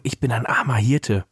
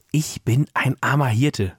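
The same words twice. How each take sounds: First: Said in the usual way. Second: Slow, pointed delivery of "Ich bin ein armer Hirte"; emphatic prompting. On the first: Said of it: "flüsterte Franzi noch einmal voller Nachdruck". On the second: A narrator's reading. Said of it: "noch einmal voller Nachdruck".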